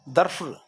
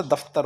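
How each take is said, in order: First: दफ्र said with the r before the f, wrong; दफ्र as the mistaken spelling; wrong form. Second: दफ्तर with a clear त after the f; दफ्तर spoken carefully and correctly; correct form. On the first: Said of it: "दफ्र नहीं होता". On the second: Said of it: "दफ्तर होता है". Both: Shown as a demonstration.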